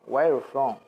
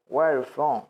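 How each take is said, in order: Both takes have the same delivery.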